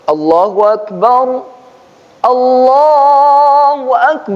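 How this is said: There is a full stop after the first Akbar. The reciter stops between the two phrases. "kalau dia mau di wakaf itu baru Allahu Akbar, Allahu Akbar, berhenti dulu"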